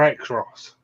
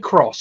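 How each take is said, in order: First: The name starts with the letter name 'ex'. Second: The name starts with a plain 'k' sound. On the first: "or X-Ross?" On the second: "Do you say cross"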